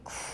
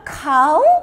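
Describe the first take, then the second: First: It is said like coo, ending in oo. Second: It is said like cow, ending in ow. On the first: "계속 O-U-G-H 발음을 틀리는 거예요" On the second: "또 카우로 읽어요"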